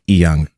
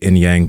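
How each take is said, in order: First: It has no n sound before the y. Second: It has an n sound before the y. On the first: This is the name's true pronunciation. "Say it the, the right way" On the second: This is an easier version for others to say. "I just say Inyang because it's easier for everyone to say"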